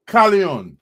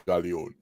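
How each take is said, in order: First: Said in the usual way. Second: The name dropped low and soft, deep. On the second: Retold or imitated. Host imitating the artist's intro tag in a deep voice. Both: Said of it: "as it says in his deep voice".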